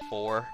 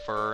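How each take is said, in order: First: The vowel is full, sounding like 'four'. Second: The vowel is reduced, sounding like 'fur'. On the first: "instead of for" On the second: "saying fur instead of for is just easier"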